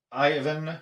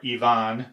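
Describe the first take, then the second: First: Ivan said EYE-van, the usual English way; anglicized Ivan, stress on the first syllable. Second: Ivan said ee-VAHN, stress on the last syllable; Russian-style Ivan with a rising end. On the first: Showing viewers the English way to say the maker's name, EYE-van. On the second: Offering viewers the Russian version of the name, ee-VAHN. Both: Shown as a demonstration. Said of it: "if you prefer".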